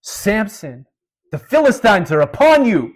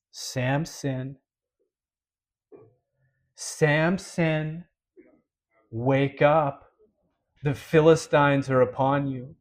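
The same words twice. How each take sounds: First: Loud, high yell into someone's ear; acted-out shout to wake a sleeper; yelled alarm. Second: Slow, spaced-out call to a sleeper; unhurried warning with long pauses, no yelling; measured waking call. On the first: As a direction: cry out a warning at full voice. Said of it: "she yells in his ear". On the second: Retold or imitated. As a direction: call the name, wait, then deliver the warning gravely. Final waking, drawn out, unlike earlier yells.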